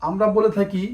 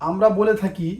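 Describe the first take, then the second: No difference in how they are said.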